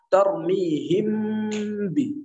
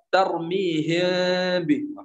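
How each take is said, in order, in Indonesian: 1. Bibir dirapatkan rapat pada huruf m. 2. Bibir membuka celah lebar sehingga udara keluar. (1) "Terlalu merapatkan kedua bibir jika memilih idbaq" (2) "celah yang terlalu lebar ... Anginnya keluar semua"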